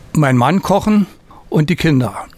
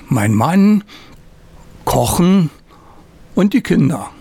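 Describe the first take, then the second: First: It runs on without a pause after "Mann". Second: There is a pause after "mein Mann".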